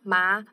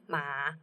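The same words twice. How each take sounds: First: The pitch rises from middle to high. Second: The pitch dips down and then rises.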